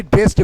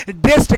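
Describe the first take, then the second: First: Final d sound on ड्रेस्ड; wrong pronunciation demo. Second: Final t sound on ड्रेस्ड; correct pronunciation demo. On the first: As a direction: pronounce ड्रेस्ड as dresd. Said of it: "ना कि". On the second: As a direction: pronounce ड्रेस्ड as drest. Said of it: "कहेंगे". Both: Shown as a demonstration.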